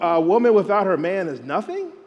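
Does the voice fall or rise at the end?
rises. The voice rises at the end like a question.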